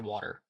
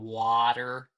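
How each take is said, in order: First: The first vowel is said quickly and naturally. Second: The first vowel is drawn out and exaggerated. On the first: The speaker is just talking without thinking about it. The speaker calls it right. "if I'm just talking, I say water" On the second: The speaker is consciously thinking about the sound. The speaker calls it wrong. "if I were to say water, wa, it's got that wa sound"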